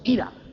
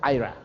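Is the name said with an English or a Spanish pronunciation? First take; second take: Spanish; English. First: The name is said the Spanish way. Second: The name is said the English way. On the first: This is how the congregation used to say it. "pero nosotros le decíamos Ira" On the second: This is how the name is properly pronounced. "Se pronuncia Ira"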